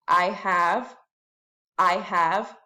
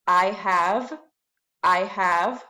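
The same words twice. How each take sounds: The two takes are said the same way.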